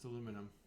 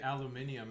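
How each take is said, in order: First: The word is said in the American pronunciation. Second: The word is said in a non-American pronunciation. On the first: It is the usual form for this speaker. "It's aluminum" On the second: It is said only as a joke. "I say aluminium as a joke"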